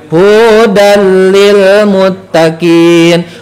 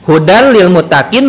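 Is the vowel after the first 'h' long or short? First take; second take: long; short. First: The vowel after the first 'h' is long. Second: The vowel after the first 'h' is short. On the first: The speaker calls it wrong. "dibaca panjang" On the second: Guidance for those who are pious. The speaker calls it right. "tanpa misalkan mad"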